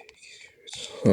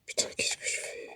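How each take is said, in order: First: A softer repeated whisper. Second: Hushed worried whisper. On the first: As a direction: breathe the question again. Repeats question quieter. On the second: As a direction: whisper it under your breath. Tense moment in horror game. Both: Real, not acted.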